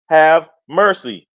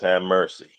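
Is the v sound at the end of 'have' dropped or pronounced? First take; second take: pronounced; dropped. First: The v at the end of have is pronounced. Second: The v at the end of have is dropped.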